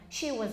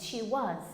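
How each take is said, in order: First: The word 'was' is unstressed with a weak 'uh' vowel. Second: The word 'was' is stressed with a full vowel. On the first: It is a plain positive sentence. "So here we have the uh sound" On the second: It is a short answer. "a short answer, yes, she was, because you're stressing it"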